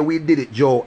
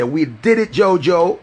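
First: Said in the usual way. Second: Higher and louder, Jojo lifted at the end; a bright rising hail of "Jojo"; excited catchphrase. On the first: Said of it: "but you can't hear". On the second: Shown as a demonstration. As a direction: call out We did it, Jojo with a rising Jojo. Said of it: "you go hear me say".

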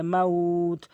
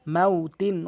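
First: Slow, level "মাউত", held as at a stop; drawn-out pausal ending. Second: Said in the usual way. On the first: Shown as a demonstration. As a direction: stretch the "উ" in "মাউত" before the final t. ("মাউত"-এ উ টেনে থামা) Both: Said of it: "ওয়াকফ করলে".

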